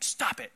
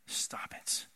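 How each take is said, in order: First: It is said in a condescending, scolding tone. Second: It is said in a sincere, caring tone. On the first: The speaker is looking down on the listener. The speaker calls it wrong. "like a condescending, like" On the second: The speaker is urging the listener out of care. The speaker calls it right. "I don't say that in like a condescending"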